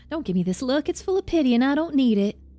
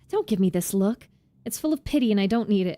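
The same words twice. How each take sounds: First: It is read in a Southern American accent. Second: It is read in the speaker's plain accent.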